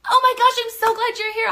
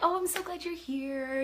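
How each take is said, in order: First: It is said with high, excited energy. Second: It is said with low, subdued energy.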